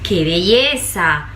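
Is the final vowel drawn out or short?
drawn out. The final vowel is drawn out long. It comments on what the person is doing. "se alargó la vocal final"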